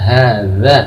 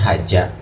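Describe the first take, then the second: First: The middle consonant is a soft 'th' sound. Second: The middle consonant is a 'j' sound. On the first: The speaker calls it right. "Yang betul adalah hadza" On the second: The speaker calls it wrong. "atau bukan haja"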